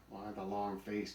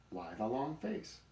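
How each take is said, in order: First: Mildly sarcastic repeat of a joke; unimpressed echo. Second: Slow, higher-pitched teasing question; smiling tease. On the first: Donkey quoting the buzzard's stale joke, mildly sarcastic. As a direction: echo it in an unamused voice. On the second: Buzzard joking with the donkey, smiling and slow. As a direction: draw out the joke with a smile. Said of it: "says old Hannes with a smile". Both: A narrator's reading.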